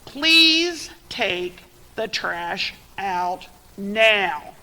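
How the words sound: It is said in an annoyed voice.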